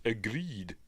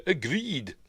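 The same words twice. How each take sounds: First: Slow, softer sarcastic agreed; air quotes. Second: Said in the usual way. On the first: Shown as a demonstration. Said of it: "in quotes". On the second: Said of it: "in quotes, agreed".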